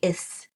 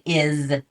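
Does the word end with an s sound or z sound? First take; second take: s sound; z sound. First: The word ends with a hissing s sound. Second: The word ends with a buzzing z sound. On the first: The speaker calls it wrong. "you don't say is" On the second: The speaker calls it right. "you say is"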